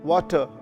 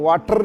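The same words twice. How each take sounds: First: The final r sound is dropped. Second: The final r sound is strongly pronounced. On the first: The speaker calls it right. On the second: The speaker calls it wrong.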